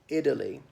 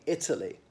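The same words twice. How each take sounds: First: The middle T is soft and not clearly released. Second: The middle T is crisp and clearly released. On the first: "pronouncing it Italy" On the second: "for us it definitely is a T"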